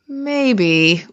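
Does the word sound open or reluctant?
reluctant. It sounds reluctant and dismissive. The answer is actually no.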